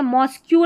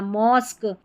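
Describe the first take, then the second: First: The word ends with a 'kyoo' sound. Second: The word ends with a plain 'k' sound. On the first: The speaker calls it wrong. "मॉस्क्यू नहीं बोलना" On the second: The speaker calls it right. "क होता है मॉस्क"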